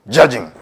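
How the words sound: The word is said loudly and sharply. The noting itself becomes a judgment. The speaker calls it wrong.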